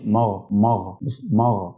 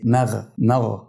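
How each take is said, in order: First: "مغ" with a heavy, dark m; weight the meem of "مغ" like the ghayn; "مغ" mispronounced, thick from the first letter; thickened meem. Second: "مغ" starting thin and ending thick; light meem, heavy ghayn. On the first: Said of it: "حرف الميم ما بيتنطقش كده". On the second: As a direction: keep m light in "مغ", then weight the ghayn. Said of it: "انتقلت من الترقيق بتاع الميم إلى التفخيم". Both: Shown as a demonstration.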